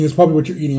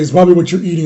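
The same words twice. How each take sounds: First: Imitating mom repeating. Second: Louder, nagging mom's first take; a touch of mom insisting, louder; imitating mom. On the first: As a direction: echo mom's nagging, dropping back down. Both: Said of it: "my mom's always like".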